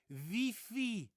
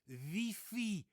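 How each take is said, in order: First: The word has a Dutch pronunciation. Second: The word has a Dutch pronunciation.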